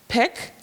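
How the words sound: The word is said smoothly as one unit. "say the whole word together"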